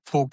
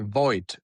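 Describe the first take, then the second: First: The name is said with a northern German pronunciation. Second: The name is said with an English pronunciation. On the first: "is in northern part" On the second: "in English, you say"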